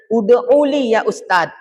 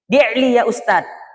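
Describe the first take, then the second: First: The first word is said in its full form. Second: The first word is said in a shortened form. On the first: It is the formal standard way of asking. "Kalau bahasa bakunya" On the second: It is the colloquial everyday way of asking. "Tapi kalau bahasa pasarannya, di'li. ... singkatan dari ud'uli"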